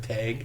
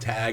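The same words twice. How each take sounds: First: The short A has a Wisconsin-style quality. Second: The short A has a standard, non-Wisconsin quality. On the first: This is the original home-region pronunciation. "instead of tag" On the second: This is the pronunciation learned after leaving home. "I like taught myself to do like tag"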